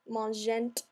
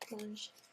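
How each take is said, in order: First: The ending is sounded out. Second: The ending is left silent. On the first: The speaker calls it wrong. "we don't want to say mangent" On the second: The speaker calls it right. "don't pronounce the E N T"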